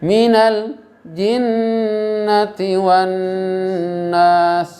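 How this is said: The phrase is broken by a short stop. The speaker calls it wrong. "Seperti kita membacanya seperti sak saktah. Itu tidak boleh"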